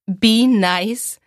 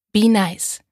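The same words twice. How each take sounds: First: "Be nice?" with a rising, questioning tune. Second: "Be nice." with a settled, falling tune; stating tune. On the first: Bailey reading the app name aloud, rising in doubt. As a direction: read "Be nice?" as a puzzled question, rising at the end. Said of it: "Ich musste lachen". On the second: Bailey typing her username in reply, falling and sure. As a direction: say "Be nice." as a plain statement, dropping at the end. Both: A narrator's reading.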